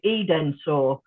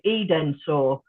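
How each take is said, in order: First: Every written syllable, including the middle one, is pronounced. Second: The same.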